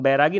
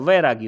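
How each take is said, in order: First: The word begins with a b sound. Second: The word begins with a v sound. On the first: The speaker calls it wrong. "लेकिन बैरागी नहीं होता है" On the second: The speaker calls it right. "वैरागी होता है"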